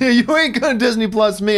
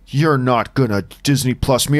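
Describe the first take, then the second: First: The tone is jovial and laughing. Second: The tone is stern and serious.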